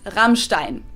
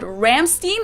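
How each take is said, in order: First: The name is said with a German pronunciation. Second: The name is said with an American pronunciation. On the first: The speaker calls it right. "but it's Rammstein" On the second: The speaker calls it wrong. "not called Rammstein, which is what I hear most Americans"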